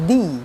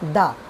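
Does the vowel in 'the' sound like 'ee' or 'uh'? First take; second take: ee; uh. First: The word ends in a long 'ee' vowel. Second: The word ends in a short 'uh' vowel. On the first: It comes before a vowel sound. "যখন vowel sound হয় ... তখন হয় দি" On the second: It comes before a consonant sound. "আর consonant হলে হয় দা"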